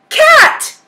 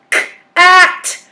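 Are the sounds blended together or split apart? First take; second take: blended; split. First: The sounds are said quickly, blended together. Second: The sounds are said slowly, split apart.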